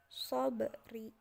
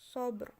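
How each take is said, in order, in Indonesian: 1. Konsonan akhir diikuti oleh vokal pendek. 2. Kata itu berakhir pada konsonan akhir tanpa vokal. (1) "Bukan sobri" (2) "ketika diwakafkan menjadi"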